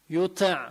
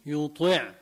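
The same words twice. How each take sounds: First: يطع with a weak, thin ط; wrong weak ط. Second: يطع with a full, heavy ط. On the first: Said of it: "بتطلع معي ضعيفة". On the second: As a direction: say يطع with a thick ط. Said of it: "بخليها مفخمة". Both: Shown as a demonstration.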